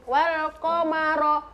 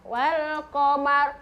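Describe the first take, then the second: First: An extra o vowel follows the final r. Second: The word ends cleanly on the r sound. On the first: The speaker calls it wrong. "jangan wal qamaro" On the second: The speaker calls it right. "Wal qamar jangan wal qamaro"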